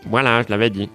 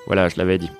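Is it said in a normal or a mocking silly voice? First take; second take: mocking silly; normal. First: It is said in a silly mocking voice. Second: It is said in a normal voice.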